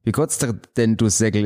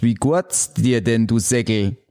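First: Quicker Swabian retry. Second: Put-on slow, careful Swabian greeting to an old buddy. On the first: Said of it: "Ist es nicht korrekt?". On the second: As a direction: spell out the Swabian greeting slowly. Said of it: "Begrüßung eines alten Kumpels auf Schwäbisch". (langsamer schwäbischer Gruß) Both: Shown as a demonstration.

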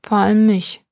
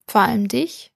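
First: "Vor allem mich" as a louder statement, falling at the end; emphatic statement after pause. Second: "Vor allem dich" with a clear rise on "dich"; questioning. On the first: Pan adding its point after a pause, emphatic falling statement on "Vor allem mich". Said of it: "Die Pfanne machte eine Pause". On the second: Old woman asking the pan back, rising question on "Vor allem dich". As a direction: ask "Vor allem dich" back, lifting the last word. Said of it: "fragte sie die Pfanne". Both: A narrator's reading.

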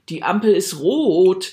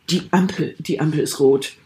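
First: Slow meaningful hint. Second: Irritated demo. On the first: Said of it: "wenn ihr sagt". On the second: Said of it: "So nach dem Motto, „Halt die Gosche". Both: Shown as a demonstration.

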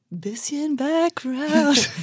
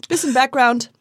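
First: Very slow, grave interviewer voice; mock serious. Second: Said in the usual way. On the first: Shown as a demonstration. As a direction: drag it out, solemn and serious. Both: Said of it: "das wurde so ernst".

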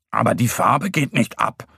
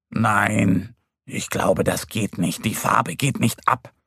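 First: Mildly doubtful little bear; hesitant. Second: Low, let-down little bear; mildly disappointed. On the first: Little bear doubting the hare's praise, mildly hesitant. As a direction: object gently, a touch unsure. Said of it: "meint Mo zögerlich". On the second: Little bear whose paw stays uncoloured, mildly disappointed. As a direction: give up gently, voice sinking. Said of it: "sagt er enttäuscht". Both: A narrator's reading.

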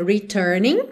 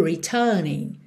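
First: Returning with both R's rolled; American returning. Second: Returning with the middle R dropped and the U stretched; British returning. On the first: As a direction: curl every R in returning. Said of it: "ao invés de dizer returning". ("returning" com todos os R enrolados) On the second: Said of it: "eu digo returning". ("returning" sem o R do meio) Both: Shown as a demonstration.

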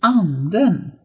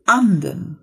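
First: "Anden" with the falling-then-rising double tone; accent two. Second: "Anden" slow and louder, plain single tone; accent one. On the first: Teacher giving "the ghost", tonal "Anden". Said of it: "dieses Ande ... bleibt erhalten". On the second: Teacher giving "the duck", slow plain "Anden". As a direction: say "Anden" simply, no tonal swing. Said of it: "Fertig. Einfach nur Anden". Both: Shown as a demonstration.

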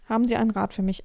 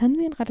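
First: Said in the usual way. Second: High mocking echo of the question; annoyed mimicry. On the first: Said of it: "Das hat mich so genervt". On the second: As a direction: mimic his question with irritation. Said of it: "Ach, immer dieses".

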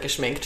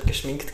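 First: Geschminkt said as geschmenkt, with an e; wrong vowel. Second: Geschminkt said with a clear i vowel; correct vowel. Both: Shown as a demonstration. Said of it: "geschminkt statt geschminkt gesagt".

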